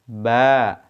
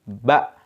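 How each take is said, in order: First: The vowel is held for one beat. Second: The vowel is cut short. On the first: "Kalau panjangnya satu ayunan suara" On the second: "Kalau pendek"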